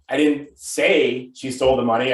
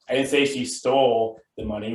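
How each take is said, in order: First: The word 'say' carries the main stress. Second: The word 'stole' carries the main stress. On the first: It was implied rather than said outright. "I could be implying that she stole it" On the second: She did something else with it, like borrowing. "which means maybe she borrowed it"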